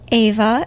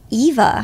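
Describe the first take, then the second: First: The name begins with a vowel other than 'ee'. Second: The name begins with a long 'ee' vowel. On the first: The speaker calls it right. "it's actually pronounced Ava" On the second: The speaker calls it wrong. "Long E with yeah. the Midwestern accent"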